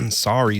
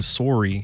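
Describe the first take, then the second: First: Sorry is said with the usual open 'sah' vowel. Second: Sorry is said with a 'sore' vowel, rhyming with story. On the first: "changed the way that sorry sounds" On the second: "because it rhymes with story"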